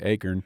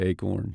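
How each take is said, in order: First: It is said the southeastern US way. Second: It is said the Great Plains way. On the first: The speaker avoids being teased by southeastern listeners. "if I'm talking to somebody from the southeastern U S, I intentionally say acorn" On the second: The speaker matches listeners from the Great Plains. "if I'm talking to folks maybe out in the Great Plains and stuff, I tend to say acorn"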